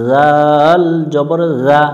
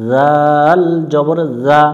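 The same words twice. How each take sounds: The two takes are said the same way.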